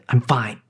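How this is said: The words sound strained and unconvincing. The speaker is not actually fine. "The subtext is I'm not"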